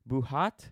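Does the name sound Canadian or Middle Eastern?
Middle Eastern. The name is said with a Middle Eastern sound. "The way I said it first sounded like a Middle Eastern thing"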